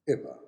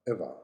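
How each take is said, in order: First: It is said in a British accent. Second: It is said in a British accent.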